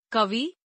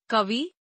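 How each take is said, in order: First: Said in the usual way. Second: कवि ending on long ee, "kavee"; mispronounced. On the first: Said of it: "शुद्ध". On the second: Shown as a demonstration. Teacher showing an i error, mispronounced with long final ee. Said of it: "अशुद्ध".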